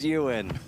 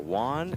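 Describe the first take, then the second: First: The name is said like 'Ewan'. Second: The name is said like 'Juan'. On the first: The speaker calls it right. "but it's pronounced Ewan" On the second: The speaker calls it wrong. "I go, Juan, and the whole table starts cracking up"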